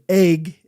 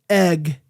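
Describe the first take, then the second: First: The vowel sounds like the 'ay' in 'day'. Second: The vowel sounds like the short 'e' in 'bed'. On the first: This is how Midwesterners say it. "we're all from the Midwest and we say egg" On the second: This is the usual way others say it. "instead of egg"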